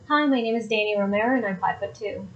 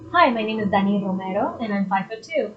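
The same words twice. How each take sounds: First: Romero is said with a plain American R. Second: Romero is said with a strongly rolled R.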